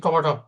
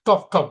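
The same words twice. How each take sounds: First: টপা টপ run together as "topatop", an a joining both halves; linking a sound. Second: Said in the usual way. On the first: Shown as a demonstration. Teacher showing quick everyday speech, টপা টপ linked as "topatop". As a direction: join the two tops with an a: টপা টপ. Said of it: "আপনি বলেন কি টপা টপ". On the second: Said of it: "আপনি যখন এই টপ টপ বলবেন".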